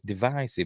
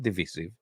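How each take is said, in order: First: The second syllable has a long 'eye' vowel. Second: The second syllable has a short 'it' vowel. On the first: The speaker calls it right. "It's a divide, divisive" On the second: The speaker calls it wrong. "not divisive. You don't say divid"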